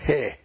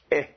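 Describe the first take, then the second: First: "he" with an audible h before a short eh; rough breathing. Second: "eh" with no h sound at the start; smooth breathing. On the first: Teacher contrasting breathings for Greek students, "he" said as heh with an h. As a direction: puff an h into "he", rhyming with "eh". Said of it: "The rough breathing". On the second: Teacher showing Greek students a smooth breathing, "eh" without any h. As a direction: begin "eh" straight on the vowel. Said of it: "you have a smooth breathing". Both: Shown as a demonstration.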